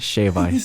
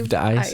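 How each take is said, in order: First: No d sound is heard after shave. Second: A d sound is heard after shave. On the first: The speaker calls it right. "It's shave ice" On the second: The speaker calls it wrong. "There's no D. It's not shaved"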